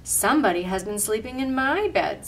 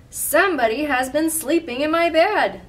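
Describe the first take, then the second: First: Moderate mother-bear voice, stressing MY; storybook mother bear, near normal pitch and volume; middle-sized Mama Bear voice. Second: Loud, high outcry from the big bear; big bear voice, raised in pitch and volume; great big Papa Bear voice. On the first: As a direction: say it as Mama Bear, neither big nor little. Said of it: "in the middle-sized voice". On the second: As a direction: boom it out as a big storybook bear. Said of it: "in his great big voice". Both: A narrator's reading.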